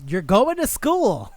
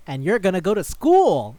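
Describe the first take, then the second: First: "going" and "school" stretched high and loud; "school" sung out long in mock insistence; emphatic repeat. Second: High, louder reveal with a lift on school; mock-triumphant declaration; grand announcement. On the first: Demon repeats it over kid's surprise. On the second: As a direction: imitate a demon proudly unveiling a plan. Demon announces the plan.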